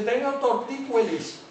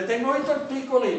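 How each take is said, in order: First: "tortícolis" said as tor-tí-CUE-lis; loud, slow mock "tortícolis" with ue for o; absurd diphthongised form. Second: Said in the usual way. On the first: Shown as a demonstration. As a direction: stretch out the wrong ue in "tortícolis". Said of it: "nadie se le ocurre". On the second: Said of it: "Cuando dice la gente en la calle".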